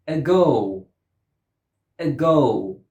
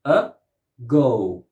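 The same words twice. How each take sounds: First: "Ago" with a weak schwa, then a strong GO; unstressed first syllable. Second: "Ago" in two separate beats, uh, go; syllable by syllable. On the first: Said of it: "first syllable has a schwa". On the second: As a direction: break "Ago" apart with a pause. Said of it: "Two syllables". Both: Shown as a demonstration.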